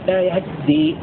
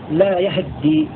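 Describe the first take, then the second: First: The h carries almost no vowel at all. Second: The h carries a brief, clipped a vowel. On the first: "بسكون الهاء مع تجديد الذال ... هكذا" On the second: "فتح الياء واختلاف فتحة الهاء وتجديد الذال، هكذا"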